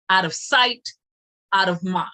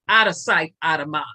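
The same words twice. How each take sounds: First: It is said slowly and deliberately. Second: It is said at a normal speed.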